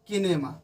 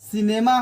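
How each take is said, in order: First: The word begins with a K sound. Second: The word begins with an S sound. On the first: The speaker calls it wrong. "न कि किनेमा" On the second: The speaker calls it right. "सिनेमा होता है"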